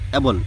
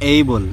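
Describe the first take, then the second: First: The first vowel is short, like 'a' in 'cat'. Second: The first vowel glides, like 'ay' in 'day'. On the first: The speaker calls it wrong. "এই বানানটা আমরা অ্যাবল বলবো না" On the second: The speaker calls it right. "কি বলবো? এইবল"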